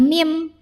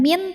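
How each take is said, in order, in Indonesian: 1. Kata ini berakhir dengan bunyi m yang ditahan dan sengau. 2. Kata ini berakhir dengan bunyi n yang biasa. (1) "tapi mim dan dengung, tahan bunyi M-nya" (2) "bukan min"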